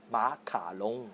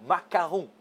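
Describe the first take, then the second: First: Macaron said as Chinese ma-ka-long, l for r, slightly lower and softer; Chinese-style macaron. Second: Said in the usual way. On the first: Shown as a demonstration. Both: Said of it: "la traduction phonétique du mot macaron".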